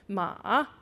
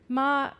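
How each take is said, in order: First: The syllable's pitch falls and then rises. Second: The syllable is said on a high level pitch. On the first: It means horse. "falling rising tone means horse" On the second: It means mother. "with a high tone means mom"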